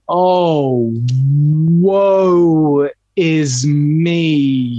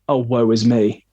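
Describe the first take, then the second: First: The syllables are held long and drawn out. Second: The syllables are clipped short and quick.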